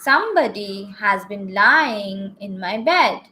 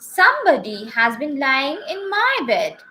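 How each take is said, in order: First: It is said in a great rough, gruff voice. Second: It is said in a middle, medium voice.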